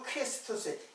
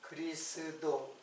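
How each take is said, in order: First: It ends on 'tos' with a final s. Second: It ends on 'do' with no final s. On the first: This is the original Greek form. "헬라 말로는 크리스토스" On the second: This is the familiar Korean form. "우리 그리스도라 그랬죠"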